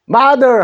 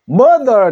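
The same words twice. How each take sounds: First: The first vowel sounds like 'ah'. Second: The first vowel sounds like 'uh'. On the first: "마라는 소리를" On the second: "어 소리로 나면은 mother 되죠"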